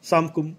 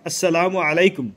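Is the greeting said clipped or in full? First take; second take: clipped; full. First: The greeting is squeezed into two syllables, 'samkum'. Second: Every syllable of the full greeting is said. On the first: The greeting is being mocked. The speaker calls it wrong. "সালাম দিলেও তা ঠিকমতো উচ্চারণ হয় না" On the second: The greeting is given properly. The speaker calls it right. "অন্তত এরকম এতটুকু বললে"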